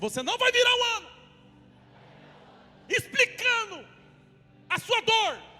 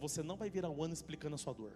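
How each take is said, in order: First: It is said fervently, in a Pentecostal preaching style. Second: It is said calmly, in a normal tone.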